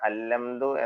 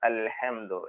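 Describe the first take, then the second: First: The h sound is dropped, giving a long l. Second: The h sound is clearly pronounced after l. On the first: The speaker calls it wrong. "അല്ലംദു എന്നാവരുത്" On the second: The speaker calls it right. "സുക്കൂനുള്ള ലാമ് പിന്നീട് ഹ ഉച്ചരിക്കുക"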